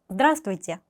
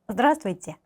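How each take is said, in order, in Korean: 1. 중간의 몇몇 자음은 생략하고 흘려서 발음해요. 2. 중간의 몇몇 자음은 생략하고 흘려서 발음해요.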